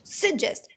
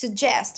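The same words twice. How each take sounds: First: The stress is on the first syllable. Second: The stress is on the second syllable. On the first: The speaker calls it wrong. "it's not suggest" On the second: The speaker calls it right. "the stressed syllable is uh, the second one"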